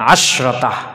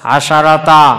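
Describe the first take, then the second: First: There is no vowel after the sh sound. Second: An a vowel comes after the sh sound. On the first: Most speakers say it this way to make it lighter. "জমহুর বলে আশরতা" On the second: Four open vowels in a row make it heavy to say. "সবগুলো একসাথে জবর পড়তে একটু টান দিতে ভারী হয়েছে"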